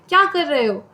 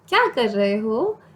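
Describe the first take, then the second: First: It is said harshly and angrily. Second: It is said softly and affectionately.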